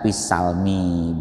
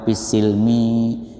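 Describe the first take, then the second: First: The vowel after the s is a. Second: The vowel after the s is i. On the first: "bisa dibaca fat fathah" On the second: "bisa dibaca kasroh"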